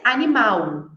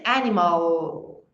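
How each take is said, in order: First: "animal" in Portuguese, ending in "au"; Portuguese "animal" with a U for the final L; Portuguese pronunciation. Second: "animal" in English, stressed first, dark L held at the end; slow, low English "animal" with a long final L; English pronunciation. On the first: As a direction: say "animal" as Brazilian "animau", stress on the last syllable. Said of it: "em português". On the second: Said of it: "Em inglês". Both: Shown as a demonstration.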